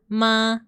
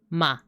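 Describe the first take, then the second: First: The pitch stays level and flat. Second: The pitch falls downward. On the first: "this one is like just a horizontal line" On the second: "this one goes down"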